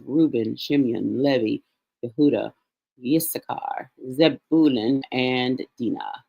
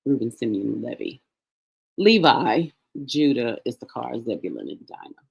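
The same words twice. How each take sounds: First: Levi as LEH-vee, Yehuda as yeh-HOO-dah, Dinah as DEE-nah; Hebrew pronunciation. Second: Levi as LEE-vye, Judah as JOO-duh, Dinah as DYE-nuh; English names, Simeon with s, Levi corrected to LEE-vye, Dinah as DYE-nuh; English pronunciation. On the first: Teacher listing Leah's children in Hebrew, Levi as LEH-vee, Dinah as DEE-nah. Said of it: "the pronunciation for the Hebrew". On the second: Teacher repeating the children's names in English, Levi as LEE-vye, Dinah as DYE-nuh. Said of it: "Uh, we would". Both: Shown as a demonstration.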